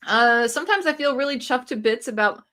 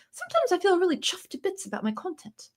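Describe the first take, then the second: First: Said in the usual way. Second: Playful put-on British accent, higher and softer. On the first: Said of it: "I think I should talk in a British accent". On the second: Shown as a demonstration. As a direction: say it like a cheeky Brit pleased with her videos. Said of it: "I should talk in a British accent".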